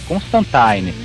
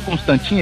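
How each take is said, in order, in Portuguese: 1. A última sílaba soa como 'tyne'. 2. A última sílaba não soa como 'tyne'. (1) "não, Tyne, Constantine" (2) "todo mundo pronuncia o nome do cara errado"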